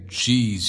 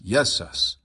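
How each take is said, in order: First: The name begins with a hard J sound. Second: The name begins with a Y sound. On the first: The speaker calls it wrong. "You don't pronounce the J hard like that" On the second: The speaker calls it right. "J's are pronounced as yas, almost like a Y"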